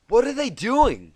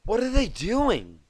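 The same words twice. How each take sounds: First: High, loud, slowed panic; frantic. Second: High, louder frantic question; panicked asking. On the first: Twilight asks frantically under the snowball fire. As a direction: ask in a frantic rush. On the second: Twilight frantically asks Applejack under fire. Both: Acted. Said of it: "she asked frantically".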